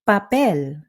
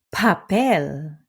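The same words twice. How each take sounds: First: The p is soft with no puff of air. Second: The p has a big puff of air. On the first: The speaker calls it right. "keep it chill. No big puffs of air" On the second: The speaker calls it wrong. "not papel"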